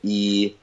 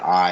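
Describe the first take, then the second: First: The word is said with a distorted vowel. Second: The word is pronounced in the standard way. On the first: "but I'm pronouncing it e" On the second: "you learn the word I"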